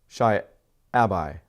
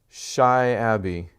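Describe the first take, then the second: First: The last syllable rhymes with 'Shy'. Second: The last syllable does not rhyme with 'Shy'. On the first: "Because then it would rhyme" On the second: "I feel like I'm saying your name wrong"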